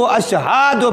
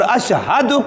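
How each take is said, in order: First: The vowel after the 'h' is long. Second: The vowel after the 'h' is short. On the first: It becomes a verbal noun, so the meaning changes. The speaker calls it wrong. "वहाँ उसको खड़ी ज़बर कर दिया" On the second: It is a verb meaning 'I bear witness'. The speaker calls it right. "हा की ज़बर पड़ी ज़बर है"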